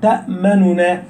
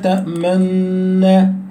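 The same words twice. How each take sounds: First: The two n sounds are pronounced separately. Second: The n sounds merge, with lips rounded. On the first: "الاصل ان هو يكون مظهر" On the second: "هكذا بالإشمام"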